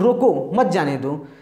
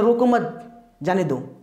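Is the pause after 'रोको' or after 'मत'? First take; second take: after रोको; after मत. First: There is a pause after रोको. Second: There is a pause after मत.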